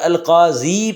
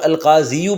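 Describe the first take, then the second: First: The word ends on a plain 'ee' vowel. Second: The word ends with an added 'oo' vowel. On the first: The speaker calls it right. "अलकाज़ी पढ़ेंगे ज़म्मा है नज़र नहीं आ रहा" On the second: The speaker calls it wrong. "इसको अलकाज़ीयू पढ़ना गलत है।"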